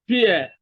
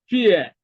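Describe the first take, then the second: The two takes are said the same way.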